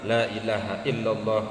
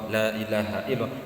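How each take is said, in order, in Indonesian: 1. 'La' pertama dibaca pendek. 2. 'La' pertama dibaca pendek.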